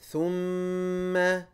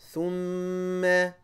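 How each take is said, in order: No difference in how they are said.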